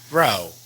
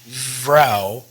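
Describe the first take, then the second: First: The word begins between an F and V. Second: The word begins with a strong V sound. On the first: The speaker calls it right. "you just want to go Vrou" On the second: The speaker calls it wrong. "or Vrou"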